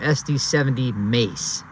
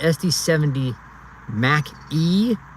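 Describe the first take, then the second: First: The ending is said as one syllable, 'Mace'. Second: The ending is said as two syllables, 'Mac E'. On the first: "or S D seventy Mace?" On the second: "Is it S D seventy Mac E"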